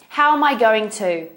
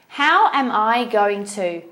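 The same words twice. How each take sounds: First: It is said at a faster pace. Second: It is said at a slower pace.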